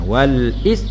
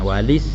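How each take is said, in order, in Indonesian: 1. Hentian glotis memisahkan 'wal' dan 'is'. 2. Bunyi l langsung menyambung ke 'is' tanpa berhenti. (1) "asalnya wal is wal is kana hamzah tu hamzah qata" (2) "gugur hamzah pada baca walis"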